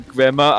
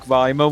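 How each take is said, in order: First: The first syllable sounds like 'Grimace'. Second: The name is said the usual way. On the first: The speaker calls it right. "it's actually Grimmer, as in Grimace from McDonald's" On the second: The speaker calls it wrong. "everyone's been pronouncing Grimer wrong"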